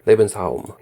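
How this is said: It is said with a German accent. The speaker calls it right.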